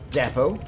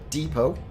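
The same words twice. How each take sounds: First: It is said with a British pronunciation. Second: It is said with an American pronunciation.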